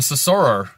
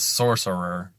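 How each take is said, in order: First: The stress falls on an unexpected syllable. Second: The stress falls on the usual syllable. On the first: The speaker calls it wrong. "I'm saying it with emphasis on the wrong syllable" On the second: The speaker calls it right. "The real word is sorcerer"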